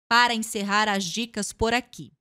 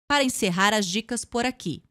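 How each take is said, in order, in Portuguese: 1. Dito com o rosto fechado, sem sorrir. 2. Dito com o rosto fechado, sem sorrir.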